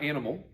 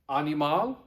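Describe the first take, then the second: First: It is said with an English pronunciation. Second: It is said with a Latin pronunciation. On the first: The speaker calls it wrong. "remember not animal" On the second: The speaker calls it right. "Say it like you speak Latin"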